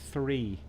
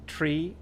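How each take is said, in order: First: The word is said in a general accent. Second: The word is said in an Irish accent. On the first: "Or three everywhere else" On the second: "Or three in Ireland"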